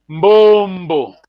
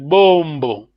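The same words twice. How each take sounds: First: "Mbombo" with a clear hummed m before the b; teacher demo of "Mbombo" with a nasal onset; initial nasal. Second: "bombo" starting straight on the b, no hum before it; teacher demo of "bombo" without the leading nasal. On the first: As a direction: start "Mbombo" on a leading nasal m. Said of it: "We have Mbombo nasal". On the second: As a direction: drop the nasal and open "bombo" on a plain b. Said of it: "Here there's no nasal". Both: Shown as a demonstration.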